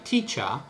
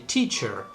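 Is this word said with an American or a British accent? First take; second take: British; American. First: It is said with a British accent. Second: It is said with an American accent. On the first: "in R P received pronunciation, they say teacher" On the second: "in America, they say teacher"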